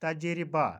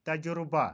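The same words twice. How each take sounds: First: तजरिबा said taj-ri-ba; तजरिबा with no u sound; correct pronunciation. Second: तजुर्बा said ta-ju-ru-ba; तजुर्बा as tajurba; common mispronunciation. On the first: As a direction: say तजरिबा with i after the r. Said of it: "का सही तलफ़ुज़". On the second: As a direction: say तजुर्बा with u after the j. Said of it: "कुछ लोग बोलते हैं". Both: Shown as a demonstration.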